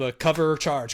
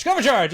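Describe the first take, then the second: First: Said in the usual way. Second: "cover charge" louder and higher, found at last; triumphant recall. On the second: Shown as a demonstration. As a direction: punch "cover charge" loud and high like a eureka. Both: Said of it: "There it is".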